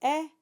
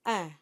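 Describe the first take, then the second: First: A clean open "eh" before nasalizing; oral eh. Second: "eh" nasalized like French in; nasal eh. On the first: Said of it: "So we go from eh". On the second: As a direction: let "eh" go through the nose. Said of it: "we nasalize that sound". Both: Shown as a demonstration.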